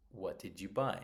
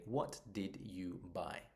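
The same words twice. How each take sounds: First: "What did you buy?" at normal speed, the d and y running together into a j sound; linked d and y. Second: "What did you buy?" with each word said apart and clearly, the d and y kept separate; slow careful what did you buy. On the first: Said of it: "I say". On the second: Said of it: "I don't say". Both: Shown as a demonstration.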